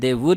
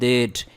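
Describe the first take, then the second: First: It is said as two full words. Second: It is said as one contracted syllable. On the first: "दे वुड है" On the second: "तो हम कहते हैं देड"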